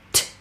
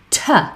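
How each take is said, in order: First: A short, crisp consonant with no vowel after it. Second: The consonant is followed by an 'uh' vowel. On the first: The speaker calls it right. "very short and very crisp" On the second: The speaker calls it wrong. "instead I hear lots of parents say"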